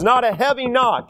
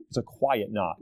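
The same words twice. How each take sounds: First: Full-voiced emphasis on "heavy knock"; strong, high-energy "heavy knock"; heavy, firm delivery. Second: Hushed, low and soft; soft, low near-murmur on "quiet knock". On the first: Contrasts heavy knock with quiet knock. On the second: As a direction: drop right down to illustrate a gentle knock. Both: Shown as a demonstration.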